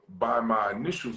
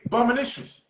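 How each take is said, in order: First: The phrase is said slowly and clearly. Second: The phrase is said quickly and run together. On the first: "I'm gonna say it slow" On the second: "he said it fast"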